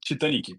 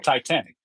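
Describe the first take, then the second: First: The name is pronounced the Brazilian Portuguese way. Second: The name is pronounced the English way. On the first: "now we call it Titanic in Brazil" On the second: "you definitely know Titanic"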